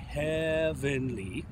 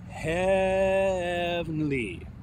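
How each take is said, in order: First: The word is said with three syllables. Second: The word is said with two syllables. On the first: The speaker calls it wrong. "not heavenly" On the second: The speaker calls it right. "We want it to be a two syllable word"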